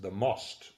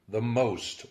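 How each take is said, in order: First: Most is said like the Czech word. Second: Most is said like the English word.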